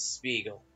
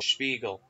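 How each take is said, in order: First: The name is said with an English pronunciation. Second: The name is said with a German pronunciation.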